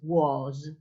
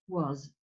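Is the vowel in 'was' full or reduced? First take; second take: full; reduced. First: The word is said with a full vowel. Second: The word is said with a weak schwa vowel. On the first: The speaker calls it wrong. "no es was" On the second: The speaker calls it right. "sino que uh, was. Super weak, muy débil"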